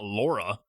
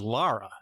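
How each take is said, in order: First: The first vowel is a rounded 'aw' sound. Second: The first vowel is an open 'ah' sound. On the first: The speaker calls it wrong. "not Laura" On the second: The speaker calls it right. "her name is [name]. Like [name] from Metallica"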